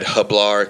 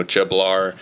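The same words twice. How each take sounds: First: "hablar" begun with an H sound; H-sound pronunciation. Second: "jablar" begun with an English J; hard J opening on "jablar"; English J pronunciation. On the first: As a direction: say "hablar" with H for the Spanish J. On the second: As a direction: say "jablar" with J as in jam. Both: Shown as a demonstration. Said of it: "the J is pronounced, uh, with the H's".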